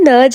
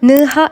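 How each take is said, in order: First: The middle consonant is an English j sound. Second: The middle consonant is an h sound. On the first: The speaker calls it wrong. "ഇത് നെർജ എന്നല്ല പ്രൊനൗൺസ് ചെയ്യുന്നത്" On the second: The speaker calls it right. "നിഹ എന്നാണ്"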